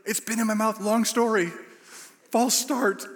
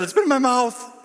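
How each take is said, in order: First: High, strained, without the shout; urgent hushed confession. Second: High, loud, desperate outburst; blurted confession. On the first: Preacher hurriedly explains to lead pastor, high and strained. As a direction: squeeze it out urgently, holding volume back. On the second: Preacher confesses to lead pastor, loud and desperate. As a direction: blurt it out in exasperation. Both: Retold or imitated.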